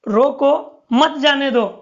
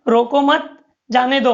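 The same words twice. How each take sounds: First: There is a pause right after 'roko'. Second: There is a pause right after 'mat'. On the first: The person should be stopped and not allowed to leave. "बोलने वाला व्यक्ति रोको रोको मत जाने दो तो अर्थ अलग हो जाएगा" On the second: The person should not be stopped but allowed to leave. "वो आकर यहां पर अल्प विराम लेता है"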